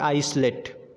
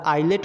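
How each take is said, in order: First: The s sound is pronounced in the middle. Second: The s sound is left out entirely. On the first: The speaker calls it wrong. "ना कि" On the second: The speaker calls it right. "ये भी हमारा आइलेट हो जाएगा"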